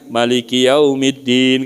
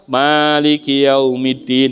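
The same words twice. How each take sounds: First: The first vowel of Maliki is kept short. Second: The first vowel of Maliki is held long. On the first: This is another accepted reading. "maliknya nggak dibaca panjang" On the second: This is the usual reading people know. "Kita mah"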